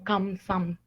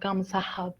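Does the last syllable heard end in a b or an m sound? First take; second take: m sound; b sound. First: The syllable ends in an m sound. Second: The syllable ends in a b sound. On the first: The speaker calls it right. "la pronunciación viene siendo específicamente como Kamsam" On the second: The speaker calls it wrong. "no es como Kamsahab"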